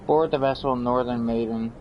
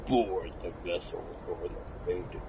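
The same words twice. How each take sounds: First: It is read in a normal speaking voice. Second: It is read in a spooky, monstrous put-on voice.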